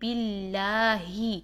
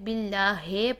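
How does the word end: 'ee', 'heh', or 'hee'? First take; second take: hee; heh. First: The word ends with a clear 'hee'. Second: The word ends with 'heh' instead of 'hee'. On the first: The speaker calls it right. "हा को हम प्रोमिनेंट करेंगे" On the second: The speaker calls it wrong. "ही को हे पढ़ देते हैं"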